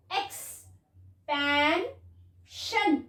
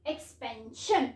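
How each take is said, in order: First: expansion drawn out very slowly, sound by sound; slow blended word. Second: Said in the usual way. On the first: Shown as a demonstration. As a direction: stretch expansion for a child to follow. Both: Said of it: "okay".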